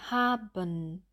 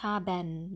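First: The ending is reduced with little jaw movement. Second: The ending has a full vowel with an open jaw. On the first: The speaker calls it right. "Wir sagen haben" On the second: The speaker calls it wrong. "Wir sagen nicht haben"

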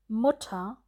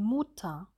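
First: The u is short, lax and open. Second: The u is tense with a closed jaw. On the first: The speaker calls it right. "Zum Beispiel für das kurze U" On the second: The speaker calls it wrong. "Hier sind die Lippen zu stark gespannt und der Unterkiefer ist zu weit geschlossen"

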